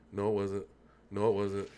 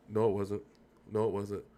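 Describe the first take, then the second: No difference in how they are said.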